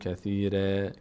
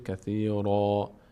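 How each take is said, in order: First: The r sound is light and thin. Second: The r sound is heavy and full. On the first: The speaker calls it wrong. "نمیگیم کثیره" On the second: The speaker calls it right. "را هم چون از اون حروف پر حروف مستعلیه است که پر خونده میشه"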